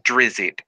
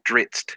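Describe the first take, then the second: First: The name is said with two syllables. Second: The name is said with one syllable. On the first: The speaker calls it wrong. "It's not Drizzit" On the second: The speaker calls it right. "it's Dritz"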